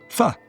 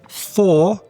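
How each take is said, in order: First: The word is said with a weak schwa vowel. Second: The word is said with a full vowel.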